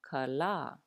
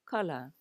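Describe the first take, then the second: First: Only the second vowel is long. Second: Both vowels are short. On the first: It means the sun or the day. "There's a kahako over that second a" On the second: It names a kind of fish. "no kahako. It is pronounced kala"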